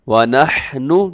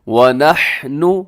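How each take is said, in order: The two takes are said the same way.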